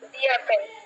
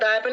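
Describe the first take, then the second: First: The word 'the' is said as 'thee'. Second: The word 'the' is said as 'thuh'. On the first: The speaker calls it right. "দি অ্যাপেল, কারণ vowel sound রয়েছে" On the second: The speaker calls it wrong. "দা অ্যাপেল না দি অ্যাপেল"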